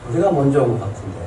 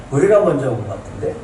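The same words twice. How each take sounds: First: Said in the usual way. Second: A chuckle, then 우리가 rising in disbelief; bemused laugh. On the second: Shown as a demonstration. Preacher mocking their bafflement at being skipped, amused rising tone. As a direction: laugh it off as a puzzled question.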